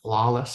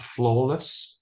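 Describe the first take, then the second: First: It is said in an American accent. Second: It is said in a non-American accent.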